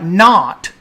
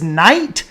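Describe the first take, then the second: First: The vowel is flattened into a single lazy sound. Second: The vowel glides fully from 'ah' to 'ee'. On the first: "it's kind of a lazier night around here" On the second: "I hear it as night"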